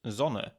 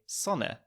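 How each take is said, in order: First: The word begins with a buzzing Z sound. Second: The word begins with a sharp S sound. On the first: This is how a German would say it. "whereas a German would probably say" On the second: This is how an Austrian would say it. "an Austrian would probably say"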